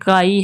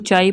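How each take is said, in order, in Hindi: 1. शब्द की शुरुआत 'k' ध्वनि से होती है। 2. शब्द की शुरुआत 'ch' ध्वनि से होती है। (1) "ये ग्रीक वर्ड है जो कि काई है" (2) "मिस प्रोनाउंस किया जाता है, इसको चाई पढ़ा जाता है"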